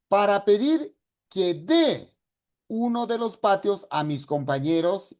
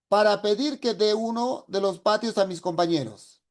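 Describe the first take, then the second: First: The word 'de' after 'que' is stressed. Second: The word 'de' after 'que' is unstressed. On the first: It is the verb meaning to give. The speaker calls it right. "es una D de dar, de dar. Entonces, a ver, ¿cómo diría?" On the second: It reads as the preposition, so it is unclear. The speaker calls it wrong. "como no lo ha tildado, no se comprende... Voy a leerlo"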